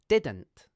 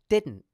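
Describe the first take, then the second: First: The middle d is fully pronounced and released. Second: The middle d is half pronounced, held unreleased. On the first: "The basic way is like this. ... The second syllable is dn't" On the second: "The more advanced pronunciation is like this. ... the second syllable is just an nt sound"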